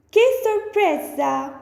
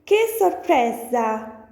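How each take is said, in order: First: "Che sorpresa" higher, with surprise; bright astonished delivery of "Che sorpresa"; surprised. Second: Said in the usual way. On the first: Shown as a demonstration. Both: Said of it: "So next one is".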